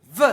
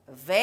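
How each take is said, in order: First: "V" as its sound, slowly set off: vvv-uh; letter sound. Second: "V" said as the French letter name, vé. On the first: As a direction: sound out "V" with a neutral vowel, not vé. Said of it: "je fais V". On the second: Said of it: "Je m'appelle". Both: Shown as a demonstration.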